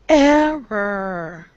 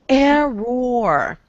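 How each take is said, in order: First: The ending is a reduced 'er' sound. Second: The ending is a full 'or' sound. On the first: The speaker calls it right. "The O R sound on the ends of words will usually sound like er" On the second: The speaker calls it wrong. "Sounds weird"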